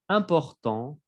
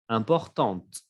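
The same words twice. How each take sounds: First: Important ending on the nasal vowel, silent t; masculine important. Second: Importante with the final t clearly heard; feminine importante. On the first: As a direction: let Important end on the nasal, no t. (Important sin t final) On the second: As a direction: tap out the t at the end of importante. (importante con la t final audible) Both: Shown as a demonstration. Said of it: "Se escucha la T".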